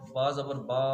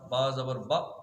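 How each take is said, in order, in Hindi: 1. अंतिम स्वर बहुत ज़्यादा खिंच जाता है। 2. अंतिम स्वर अचानक कट जाता है। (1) "इसे कहते हैं खींचना, ज्यादा खींच देना" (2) "इसे यूं नहीं करना ... ये झटका देना होगा"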